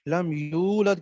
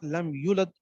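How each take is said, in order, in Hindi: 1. 'yu' का स्वर लंबा खींचा जाता है। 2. 'yu' का स्वर छोटा काटा जाता है। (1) "लम यूलद की जगह" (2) "इनकी जगह हरकत पढ़ देना ... तो ये गलत हो जाएगा"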